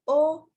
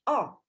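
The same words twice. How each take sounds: First: The vowel is close, with rounded, pushed-forward lips. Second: The vowel is open, with a wider jaw and lips. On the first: "lebih membuat rahang kita mengecil dan bibir seperti ada penekanan lebih maju" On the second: "lebih membuat rahang kita melebar dan bentuk bibir menjadi lebih oval"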